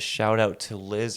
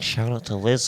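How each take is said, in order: First: It is said in a flatter, less energetic way. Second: It is said in a more upbeat, energetic way. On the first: The speaker calls it wrong. "I hope it doesn't sound sarcastic" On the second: The speaker calls it right. "should we be a little more like upbeat about it?"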